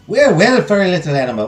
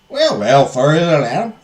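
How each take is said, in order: First: It is said in the speaker's usual accent. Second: It is said in an attempted British accent.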